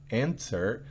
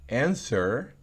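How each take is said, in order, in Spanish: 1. Se oye un sonido T muy suave. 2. Se oye un sonido T muy suave.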